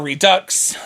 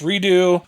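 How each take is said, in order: First: The word ends with a final 'ks' sound. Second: The word ends without a final 'ks' sound. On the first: "It depends on how you pronounce it" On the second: "I know it is a French word, so I say Redo"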